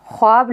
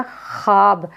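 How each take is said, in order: First: ख्वाब read letter by letter with the वाव sounded, as khwaab; ख्वाब said with the वाव, as it is written; spelled-out form. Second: ख्वाब said as khaab, with no w sound; ख्वाब pronounced as it is actually read, with the वाव silent; silent vav. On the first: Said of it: "लिखा क्या जाता है". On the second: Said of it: "लेकिन पढ़ा क्या जाएगा". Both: Shown as a demonstration.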